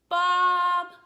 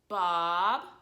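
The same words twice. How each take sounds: First: The pitch stays level and flat. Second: The pitch rises from low to high. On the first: Someone is calling for a lost dog. "we're gonna use a flat tone to call him" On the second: Someone is asking whether the dog is there. "the sign for this tone goes down to up"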